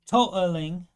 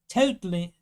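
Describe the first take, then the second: First: The middle T is dropped. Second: The middle T is pronounced.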